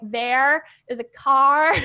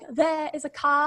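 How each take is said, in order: First: It is said in an American-style accent. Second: It is said in a local British accent.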